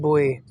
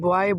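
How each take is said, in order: First: It is said the native English way. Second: It is said the common local way. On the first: The speaker calls it right. "इसकी correct pronunciation है" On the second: The speaker calls it wrong. "इसको हम बॉय बोलते हैं"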